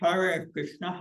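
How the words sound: It is said with an imitated Chinese accent. "And in China, they can't pronounce the R"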